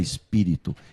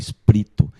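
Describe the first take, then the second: First: The word is pronounced in its full standard form. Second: The word is pronounced in a reduced popular form. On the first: This is the educated way of speaking. "Ele não ia falar espírito" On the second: This is how an uneducated character of the era spoke. "ele ia falar espírito"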